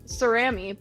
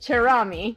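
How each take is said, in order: First: The name is said in a plain English way. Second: The name is said in an Italian way.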